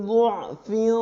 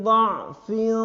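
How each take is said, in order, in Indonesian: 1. Vokal pertama berbunyi u. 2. Vokal pertama berbunyi a. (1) "dotnya dibaca dhamma semua" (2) "Kalau dibaca fathah"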